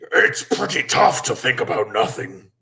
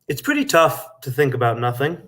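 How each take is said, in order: First: It is said in a scary monster voice. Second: It is said in his natural voice.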